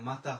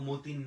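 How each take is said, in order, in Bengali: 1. শেষ অংশে একটি অনুনাসিক 'a' স্বরধ্বনি আছে। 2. শেষ অংশটি 'teen' এর মতো উচ্চারিত হয়। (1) "মাতা হয়" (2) "মতিন না হইয়া"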